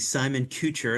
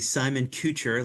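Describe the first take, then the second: First: Kucher sounds like the surname Kutcher. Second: The same.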